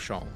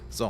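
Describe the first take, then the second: First: The name begins with a sh sound. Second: The name begins with a z sound. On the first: The speaker calls it wrong. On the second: The speaker calls it right.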